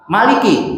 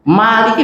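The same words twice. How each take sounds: First: The first vowel is kept short. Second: The first vowel is held long. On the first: It means king. "Maliki berapa huruf? Tiga" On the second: It means owner or master. "Maliki berapa huruf? ... Empat"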